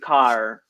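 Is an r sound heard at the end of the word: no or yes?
yes. The word ends with a clear r sound. This is the American way of saying it. "Whereas Americans, they do car. So they have the rhotic"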